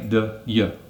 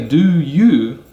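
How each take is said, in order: First: Both words are reduced and weak. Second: Both words are fully pronounced. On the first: The speaker calls it right. "They say ... a weak form" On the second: The speaker calls it wrong. "They don't say"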